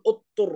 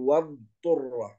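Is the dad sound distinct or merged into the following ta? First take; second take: merged; distinct. First: The dad is merged into the following ta sound. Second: The dad is pronounced distinctly and drawn out. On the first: The speaker calls it wrong. "حتى لا نقول اضطر هكذا" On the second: The speaker calls it right. "نقول والضرة"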